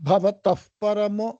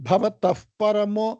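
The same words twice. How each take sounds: Both takes have the same delivery.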